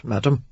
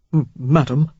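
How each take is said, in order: First: Said in the usual way. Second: Stuttering with held-back excitement; excited stutter. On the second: A narrator's reading. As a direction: trip over the word, thrilled. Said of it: "he stuttered in barely restrained excitement".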